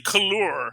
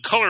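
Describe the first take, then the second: First: The second syllable has an extra oo sound. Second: The second syllable is plain, with no oo sound. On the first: The speaker calls it right. "I pronounce that U. So I'll say couleur" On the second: The speaker calls it wrong. "I don't just call it color"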